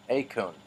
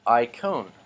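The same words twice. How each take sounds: First: "Acon." said with an ay sound, ay-kon; corrected pronunciation. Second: "Icon." said with an English eye sound at the start; starts the word as "eye-kon" by mistake; mispronounced icon. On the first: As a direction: fix the word: "Acon." as ay-kon. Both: Shown as a demonstration. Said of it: "Oh, excuse me".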